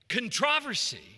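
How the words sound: The word is said the British way. "is the British way"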